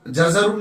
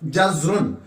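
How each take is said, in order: First: जजरुन as ja-za-run; mispronunciation with extra vowel. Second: जजरुन as jaz-run; no vowel after the z in जजरुन, two syllables; vowelless z. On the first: Teacher warning against a misreading, जजरुन as ja-za-run. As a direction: put an a after the z in जजरुन. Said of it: "जजरुन नहीं पढ़ना है". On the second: Teacher showing za is sakin, जजरुन as jaz-run. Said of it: "जा साकिन है". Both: Shown as a demonstration.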